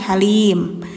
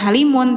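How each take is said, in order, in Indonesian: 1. Kata ini berakhir pada bunyi m tertutup. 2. Kata ini berakhir dengan suku kata vokal yang ditambahkan. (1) "tapi halim" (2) "jangan halimun"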